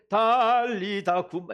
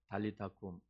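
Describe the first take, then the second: First: It is said loudly and forcefully. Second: It is said softly and gently.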